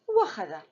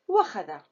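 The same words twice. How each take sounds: No difference in how they are said.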